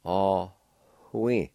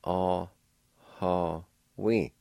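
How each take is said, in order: First: Ah, hui with a faint breathy H before the W; Ah, hui said slowly with a light H sound. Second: Ah, ha, wi with a full HA syllable before wi; Ah, ha, wi sounded out slowly; other pronunciation. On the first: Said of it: "a faint H sound right between the A and W". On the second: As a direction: say Ah, ha, wi as three clear syllables. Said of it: "the other pronunciation is like this". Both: Shown as a demonstration.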